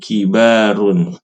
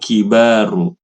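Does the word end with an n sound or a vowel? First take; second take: n sound; vowel. First: The word ends with a final n sound. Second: The word ends on a vowel without n. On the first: The speaker calls it right. "tetapi tujarun kibarun" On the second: The speaker calls it wrong. "Bukan kibaru"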